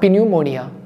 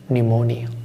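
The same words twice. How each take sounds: First: The word begins with an audible P sound. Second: The word begins with an N sound, P silent. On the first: The speaker calls it wrong. "It's not pneumonia" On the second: The speaker calls it right. "P is silent. The actual pronunciation is pneumonia"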